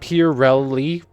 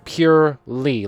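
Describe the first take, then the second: First: The word is said with three syllables. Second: The word is said with two syllables. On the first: "Are you supposed to pronounce that purely?" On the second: "I've always pronounced it purely, like two syllables"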